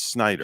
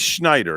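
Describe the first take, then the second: First: The name begins with an 'sn' sound. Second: The name begins with a 'shn' sound. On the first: The speaker calls it right. "it's Snyder" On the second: The speaker calls it wrong. "don't say Schneider"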